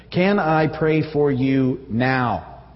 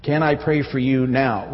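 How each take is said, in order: First: Very slow, each word laid out, now weighted; slow deliberate offer to pray; stress on now. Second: Slow repeat, now given weight; a second slow offer stressing now; emphasis on now. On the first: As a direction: draw it out slowly and lean on now. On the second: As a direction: say it again slowly, landing on now. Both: Shown as a demonstration. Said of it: "With special emphasis on the now".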